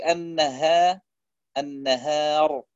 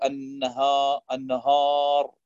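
First: Slow النهار with a thin, fronted long aa; light haa. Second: النهار with a dark, back long aa; heavy haa. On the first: Teacher showing correct recitation, النهار with light haa and alif. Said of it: "بهذا الترقيق". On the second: Teacher showing a mistake, النهار with heavy haa and alif. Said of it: "فيخطئ في الهاء وفي الألف". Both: Shown as a demonstration.

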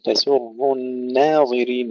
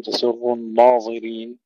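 First: الناظرين with a long, thin, fronted naa; light nun. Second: الناظرين with a thick, dark naa; wrongly heavy nun. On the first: Teacher modelling the correct recital, thin nun. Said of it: "ثم نرقق النون". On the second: Teacher showing a frequent mistake, heavy nun. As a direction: darken the nun toward naw. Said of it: "ولا نقول". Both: Shown as a demonstration.

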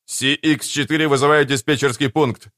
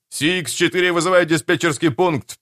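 First: Lightly voiced pilot radio call. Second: Repeated call, a bit higher; pilot radio call. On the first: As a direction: call the tower like a young pilot. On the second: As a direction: call the tower again, more urgent. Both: A narrator's reading. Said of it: "А вот и голос Хопа".

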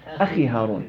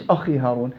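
First: "أخي" with a lighter khaa before i; relative tafkhim. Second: "أخي" with a fully heavy khaa; wrong heavy khaa. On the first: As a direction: keep the خ in "أخي" only partly heavy. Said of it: "الخاء مكسورة". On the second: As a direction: round and thicken the خ in "أخي". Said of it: "لا، مش". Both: Shown as a demonstration.

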